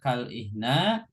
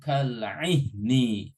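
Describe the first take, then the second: First: The word ends with an a vowel. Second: The word ends with an i vowel. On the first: The speaker calls it wrong. "nggak boleh dibaca" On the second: The speaker calls it right. "kafnya diartikan seperti"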